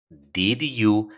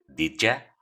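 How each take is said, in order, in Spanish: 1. La palabra 'you' mantiene su vocal plena. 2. La palabra 'you' se reduce a una 'ya' débil. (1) "en lugar de decir did you" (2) "probablemente escuches did ya"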